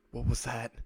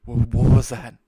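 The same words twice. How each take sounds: First: Said in the usual way. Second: Much louder startled question; alarmed. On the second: Acted. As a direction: blurt it out in sudden alarm, stumbling on the first word. Woken suddenly, repeats question in alarm.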